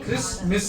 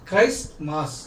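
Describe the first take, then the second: First: The word is said as 'kris miss'. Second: The word is said as 'christ mass'. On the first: Christ has gone missing. The speaker calls it wrong. "క్రిస్ మిస్ అంటారు చాలా మంది" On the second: Worship of Christ. The speaker calls it right. "అలా కాదు"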